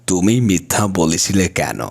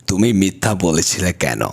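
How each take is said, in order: The two takes are said the same way.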